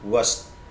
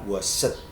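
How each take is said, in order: First: The word is said as one syllable. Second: The word is said as two syllables. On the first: The speaker calls it right. "Wash itu satu suku kata" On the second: The speaker calls it wrong. "tidak dibaca washed"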